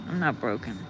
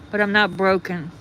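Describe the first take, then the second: First: Softly, low and to herself; quiet repeat. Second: "not" said firmly, falling at the end; firm stress on not. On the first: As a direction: lower and quieter, a murmured echo. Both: Real, not acted.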